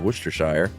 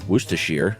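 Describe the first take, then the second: First: The ending rhymes with wire. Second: The ending rhymes with beer. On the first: The speaker calls it wrong. "instead of" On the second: The speaker calls it right. "when used as a suffix, it's uh, it rhymes with beer"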